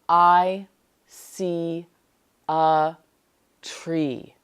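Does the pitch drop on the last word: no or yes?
yes. The last word is lower in pitch. The speaker calls it right. "when you say the last word, it sounds lower than the rest of the sentence"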